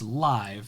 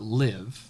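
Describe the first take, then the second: First: The vowel is long, rhyming with five. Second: The vowel is short, rhyming with give. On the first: The speaker calls it right. "she always interprets that as live" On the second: The speaker calls it wrong. "not live"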